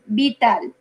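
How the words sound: The word is pronounced with Spanish sounds. The speaker calls it wrong. "you were saying like like it sounds in Spanish"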